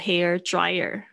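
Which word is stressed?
dryer. The stress falls on the word dryer. The speaker calls it wrong. "不要说hair dryer"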